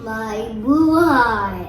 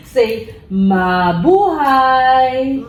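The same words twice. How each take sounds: First: Mabuhay said as My buhay, low. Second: Mabuhay stretched very slowly, high; slow teaching demo. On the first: Real, not acted. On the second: Shown as a demonstration. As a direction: say mabuhay drawn out for a child.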